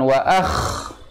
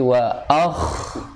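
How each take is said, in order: First: The kh sound is said hard and abrupt. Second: The kh sound is said soft and flowing. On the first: The speaker calls it wrong. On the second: The speaker calls it right. "tapi wa akh. Lembut, lunak"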